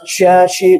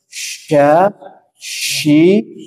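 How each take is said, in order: First: The hiss and vowel come out together. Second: The hiss of air comes before the vowel. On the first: The speaker calls it wrong. "jangan berbarengan, jangan sya, shi, jangan gitu" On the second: The speaker calls it right. "dahulukan anginnya"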